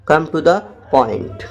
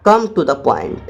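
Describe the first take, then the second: First: Slow dictation. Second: Said in the usual way. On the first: Shown as a demonstration. Teacher repeating the phrase for students, very slow. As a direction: come to the point said very slowly, word by word. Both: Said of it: "English में बोलना".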